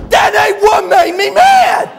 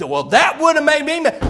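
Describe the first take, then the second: First: Slow, high, furious mock bellow; hammed-up tongue-tied roar; Buddy. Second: Said in the usual way. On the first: Buddy corrects the preacher, bellowing in worked-up rage. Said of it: "when he gets real worked up".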